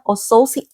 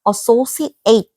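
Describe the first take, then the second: First: The word ends without the full 'ate' sound. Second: The word ends with a full 'ate' sound. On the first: The word is used as a noun or adjective. "명사, 형용사일 때는 associate ate라고 해 줘야 돼" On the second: The word is used as a verb. "동사일 때는 발음을 associate 그러니까 뒤에 발음을 ate 요렇게 해 줘야 돼"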